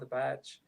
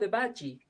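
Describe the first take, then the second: First: The word ends on a j sound, no vowel. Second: The word ends with an extra ee syllable. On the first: This is how the band itself says the name. The speaker calls it right. "No, the badge" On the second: This is how readers commonly misread the name. The speaker calls it wrong. "when people read it, they say, "Oh, the badgie.""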